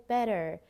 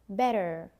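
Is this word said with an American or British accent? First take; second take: American; American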